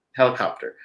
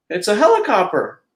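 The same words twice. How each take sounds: First: Said in the usual way. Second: Higher, cheerful mouse voice; Mickey explaining. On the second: Acted. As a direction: proudly show it off. Mickey names the machine.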